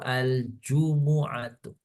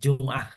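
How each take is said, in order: First: An u vowel is said right after the m. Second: The m is followed directly by the next consonant. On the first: This is the original Arabic form of the word. "betul itu itu al-jumu'atu" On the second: This is the Indonesian form of the word. "kalau bahasa Indonesia Jum'ah"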